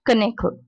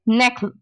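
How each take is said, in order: First: The word starts with a pronounced K sound. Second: The word starts with an N sound, no K. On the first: The speaker calls it wrong. "not knackle" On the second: The speaker calls it right. "Next one is knackle"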